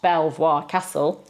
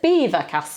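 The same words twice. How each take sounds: First: The name is said with French sounds. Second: The name is said with English sounds. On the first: The speaker calls it wrong. "you'd think that that would be pronounced like that, the French way" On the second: The speaker calls it right. "it's Belvoir Castle"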